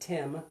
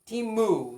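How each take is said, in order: First: The word ends on a bare m sound. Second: The word ends with an added vowel sound. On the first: "with just an M at the end" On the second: "They have to have a vowel sound at the end"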